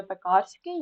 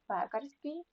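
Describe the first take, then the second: First: Пекарський stressed on КАР; wrong stress on second syllable. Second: Пекарський stressed on ПЕ, as in пекар; stress on first syllable. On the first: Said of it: "Так, не пекарський". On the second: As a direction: say ПЕкарський, leaning on ПЕ. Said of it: "тому що пекар". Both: Shown as a demonstration.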